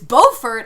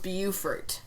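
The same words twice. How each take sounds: First: The first syllable sounds like 'boh'. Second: The first syllable sounds like 'byoo'. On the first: "is Beaufort, as in Beauregard" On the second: "pronounced Beaufort, as in beautiful"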